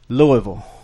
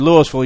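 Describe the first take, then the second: First: It is said the Kentucky way. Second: It is said the local Mississippi way. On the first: The speaker is not from the Mississippi town. The speaker calls it wrong. "Everybody else would pronounce it Louisville, like Louisville, Kentucky" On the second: The speaker is from the Mississippi town. The speaker calls it right. "if you pronounce it Louisville, you know someone from Louisville"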